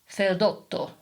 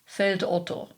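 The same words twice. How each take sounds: First: It is said Italian-style with a lengthened double T. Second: It is said German-style without a lengthened T. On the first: The name is taken to be Italian. The speaker calls it wrong. "this obviously Italian name by emphasizing the double T" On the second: The name is recognized as a German compound. The speaker calls it right. "pronouncing it in a standard German fashion"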